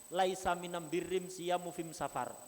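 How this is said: The article is pronounced with an m sound. It is the Himyar dialect form. "mereka am"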